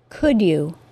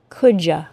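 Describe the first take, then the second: First: Both words are said separately, with no blending. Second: You is reduced to a casual ya. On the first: "articulate perfectly, with no assimilation" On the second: "as an informal contraction"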